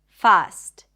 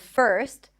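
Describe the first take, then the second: First: The vowel is an open ah sound. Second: The vowel is an r-colored er sound. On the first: The speaker calls it wrong. "substitute the sound with just one open ah sound" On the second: The speaker calls it right. "the stir sound is an R vowel"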